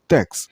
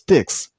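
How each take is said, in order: First: The vowel sounds like 'eh'. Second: The vowel sounds like 'ih'. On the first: The speaker calls it right. "it's tex" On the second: The speaker calls it wrong. "The last syllable isn't pronounced as tix"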